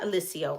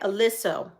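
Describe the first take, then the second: First: The name ends with an 'ee-oh' sound. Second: The name ends with a plain 'oh' sound. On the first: The speaker calls it wrong. "They told me I was saying it wrong" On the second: The speaker calls it right. "Elysso, not Elyssio"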